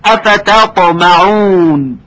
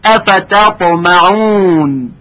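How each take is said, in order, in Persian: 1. صدای «ت» سبک و مرقق است. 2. صدای «ت» سبک و مرقق است.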